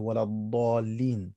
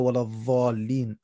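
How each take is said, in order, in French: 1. Le mot commence par une occlusive emphatique de type d. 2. Le mot commence par un son emphatique de type th. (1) "bien prononcer le dad" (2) "et non pas le dha"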